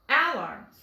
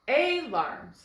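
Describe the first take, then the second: First: The first vowel is the a of apple. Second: The first vowel is a long ay sound. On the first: "it's going to say its short sound. Ah, like apple" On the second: "the A is making the long sound, A"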